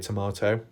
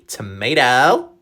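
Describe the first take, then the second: First: It is said in a non-American accent. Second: It is said in an American accent.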